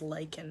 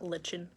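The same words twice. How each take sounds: First: The word sounds just like 'liken'. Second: The word does not sound like 'liken'. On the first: The speaker calls it right. "I love pronouncing lichen as lichen" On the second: The speaker calls it wrong. "not lichen"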